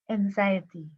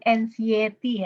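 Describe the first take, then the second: First: It is said with an English-like accent. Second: It is said with a strong Sundanese accent. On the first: The speaker calls it right. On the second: The speaker calls it wrong.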